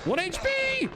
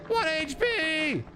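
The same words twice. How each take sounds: First: High, alarmed squeal; alarmed shout. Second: Slow, drawn-out high wail. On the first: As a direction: yelp it way up high. Health drops to one. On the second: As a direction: stretch every word out in dismay. Repeats the low health. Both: Real, not acted.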